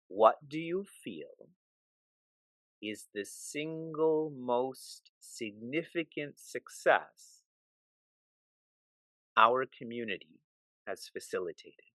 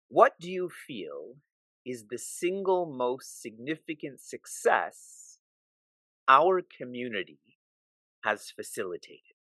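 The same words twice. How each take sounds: First: It is read slowly. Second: It is read at a normal pace.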